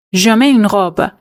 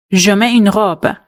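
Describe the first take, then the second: No difference in how they are said.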